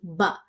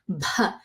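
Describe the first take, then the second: First: The b has no puff of breath after it. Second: The b is followed by a strong puff of breath. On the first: The speaker calls it wrong. "as opposed to" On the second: The speaker calls it right. "pronounced with a strong aspiration of H"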